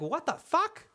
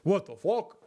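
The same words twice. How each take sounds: First: It is said in a normal voice. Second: It is said in a very deep voice.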